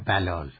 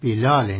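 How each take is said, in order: First: The first vowel is a short 'a'. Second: The first vowel is a short 'i'. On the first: The speaker calls it wrong. "نه بلال ... نه فتحه" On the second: The speaker calls it right. "صحیح نام ایشون بلال ... یعنی بی کسره داره"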